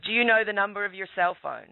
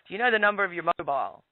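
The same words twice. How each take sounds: First: Officer's question. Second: Quicker retake of the officer's question with "mobile"; officer's question, corrected wording. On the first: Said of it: "and he said". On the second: Retelling the officer's question, fast and lightly voiced. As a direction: redo the cop's line fast with "mobile". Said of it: "Actually, they call it mobile phone". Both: Retold or imitated.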